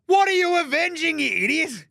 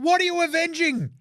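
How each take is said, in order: First: Much higher, louder, incredulous; exasperated rant. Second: Much higher and louder, exasperated; incredulous rant. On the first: Host ranting at Team USA over their Avengers name, loud. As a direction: yell at the absurd name. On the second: Host mocking Team USA's Avengers name, loud disbelief. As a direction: blast the question again in disbelief. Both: Real, not acted.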